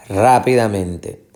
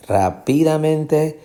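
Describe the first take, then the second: First: Slow rápidamente, RÁ stressed, then falling. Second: Slow, higher rápidamente with PI stressed. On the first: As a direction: land firmly on the first syllable of rápidamente. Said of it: "La fuerza de pronunciación es aquí". (rápidamente lento, con acento en RÁ) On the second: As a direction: raise the pitch from PI in rápidamente. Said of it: "la fuerza de pronunciación no está aquí". (rápidamente lento, con acento en PI) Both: Shown as a demonstration.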